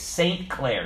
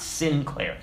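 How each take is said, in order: First: "Saint Clair" with a full "Saint", two separate words; pronounced as two words. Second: "Sinclair" with a short "Sin" opening; run-together mispronunciation. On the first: Pastor correcting his name, "Saint Clair" said as two full words. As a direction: say "Saint Clair" with a clear long "ay". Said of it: "he used to say it's Saint Clair". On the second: Pastor rejecting the wrong name, "Sinclair" said with "sin". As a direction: say "Sinclair" slowly, first syllable like "sin". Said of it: "not Sinclair". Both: Retold or imitated.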